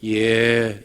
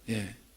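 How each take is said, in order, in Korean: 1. 그 단어는 길고 부드럽게 끌어요. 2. 그 단어는 짧고 딱딱하게 끊어요. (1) "대답도 짧게 하지 말고 좀 끌어요. 예, 이렇게" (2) "딱딱하고 공격적이고 대답이 사나운지. 예, 그렇게 하지 마세요"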